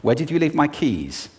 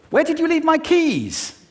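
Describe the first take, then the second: First: Said in the usual way. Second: Very high agitated question; high pitched. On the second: Shown as a demonstration. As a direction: ask it way up high, alarmed. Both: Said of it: "just with pitch".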